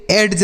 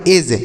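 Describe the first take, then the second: First: एड्ज with the d sounded, wrong way; एड्ज said with an audible d before the j; wrong pronunciation. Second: एज with silent d, just e and j; एज as edge, d silent; correct pronunciation. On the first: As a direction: say एड्ज pronouncing the d, as the error. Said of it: "एड्ज नहीं पढ़ेंगे". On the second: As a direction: say एज cleanly, no d sound. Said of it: "इसे हम पढ़ेंगे एज". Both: Shown as a demonstration.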